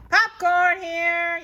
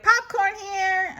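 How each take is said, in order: First: Loud, high, drawn-out vendor call; vendor's yell. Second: High, loud copycat yell; Eloise yelling. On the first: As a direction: hawk popcorn to the whole stadium. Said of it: "yells a boy". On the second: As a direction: shout it back like the vendor. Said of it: "I yell". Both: Acted.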